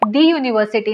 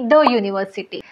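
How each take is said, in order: First: The word 'the' is said as 'thee'. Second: The word 'the' is said as 'thuh'. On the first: The speaker calls it wrong. "दी university नाही" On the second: The speaker calls it right. "दी न म्हणता द म्हणायचं आहे"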